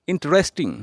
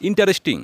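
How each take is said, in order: First: ইন্টারেস্টিং as in-tres-ting; ইন্টারেস্টিং with the a dropped; correct pronunciation. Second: ইন্টারেস্টিং as in-ta-res-ting; ইন্টারেস্টিং in four full syllables; wrong pronunciation. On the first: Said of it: "বলবো ইন্টারেস্টিং". (সঠিক উচ্চারণে ইন্ট্রেস্টিং) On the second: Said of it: "আরেকটি common ভুল". (ভুল উচ্চারণে ইন্-টা-রেস্-টিং) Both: Shown as a demonstration.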